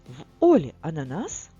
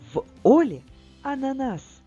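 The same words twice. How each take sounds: First: It is read with a questioning intonation. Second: It is read with a joyful exclamatory intonation. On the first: The speaker calls it wrong. "я прочитала це речення, наче питання" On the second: The speaker calls it right. "Треба виправитись"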